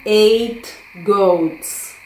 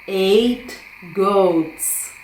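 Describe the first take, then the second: No difference in how they are said.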